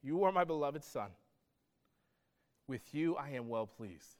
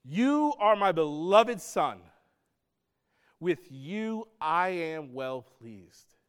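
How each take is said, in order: First: Quiet, tender declaration; hushed, gentle echo of the heavenly voice; voice of God, softly. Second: Slow, weighty, solemn declaration; stretched-out grand pronouncement, louder; voice of God. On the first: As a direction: let it fall softly, almost to yourself. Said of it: "voice of God is saying". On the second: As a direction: proclaim it slowly as the Father from heaven. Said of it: "this voice that says". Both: Acted.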